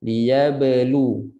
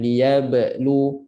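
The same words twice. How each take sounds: First: "Liyablu" with an easy light bounce on b, straight into lu; light bounced ba. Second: "Liyablu" with a small gap after the b, before lu; break midway. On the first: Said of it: "lantunkan dengan mudah dan ringan". ("Liyablu" ba dilantun ringan) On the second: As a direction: interrupt "Liyablu" in the middle. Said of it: "jangan break tengah-tengah". ("Liyablu" terputus di tengah) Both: Shown as a demonstration.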